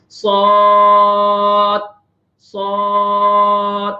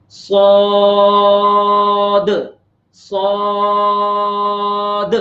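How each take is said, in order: First: صاد with the final دال swallowed, no bounce; saad without qalqala. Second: صاد held long, final دال bounced clearly; saad with qalqala. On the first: Teacher showing students the wrong صاد without qalqala. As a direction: let the دال die away unbounced. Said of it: "یوں نہیں کریں گے". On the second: Teacher showing students clear qalqala on صاد. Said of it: "دال میں قلقلہ کریں گے، اس کو ذرا واضح کر کے پڑھیں گے". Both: Shown as a demonstration.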